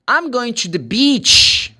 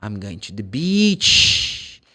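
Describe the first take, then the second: First: "beach" with a long tense EE, said slowly and higher; careful beach. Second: "beach" drawn out with a long EE, very slow; slow model. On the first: Teacher models the right vowel in "beach". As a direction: stretch the EE in "beach". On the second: Teacher repeats the sentence slowly for students. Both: Shown as a demonstration. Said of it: "that's beach".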